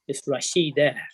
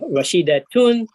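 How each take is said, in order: First: The word ends on an open -a vowel. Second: The word ends with a full -tun ending.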